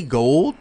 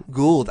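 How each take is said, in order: First: "Gould" said like "gold", with a long oh; mispronounced surname. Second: "Gould" said with an oo vowel, like "cooled"; corrected surname. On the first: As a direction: say "Gould" to rhyme with "cold", drawn out and rising. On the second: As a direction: correct "Gould" to an oo sound, falling tone. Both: Real, not acted. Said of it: "I said it right the first time".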